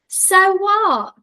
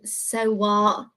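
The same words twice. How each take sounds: First: It is said with strong, real feeling. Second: It is said plainly, without much feeling.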